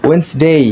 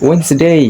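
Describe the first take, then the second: Both takes have the same delivery.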